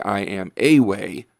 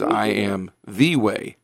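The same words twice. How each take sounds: First: Said in the usual way. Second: Slow, leaning hard on "the" in "I am the way"; "the" drawn out and stressed, not "a". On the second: Shown as a demonstration. Pastor stressing the definite article to listeners, "the" stressed. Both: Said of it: "It's a definite article there".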